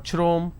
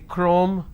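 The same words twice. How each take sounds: First: The word begins with a ch sound. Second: The word begins with a k sound. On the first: The speaker calls it wrong. "I do not say" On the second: The speaker calls it right. "I say chrome"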